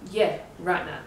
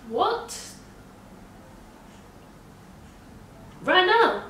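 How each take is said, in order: First: Said in the usual way. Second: High, loud incredulous question; acted-out shock, pitch leaping; shocked disbelief. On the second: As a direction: shoot right up in stunned disbelief. Her shocked reply to doctor, retold.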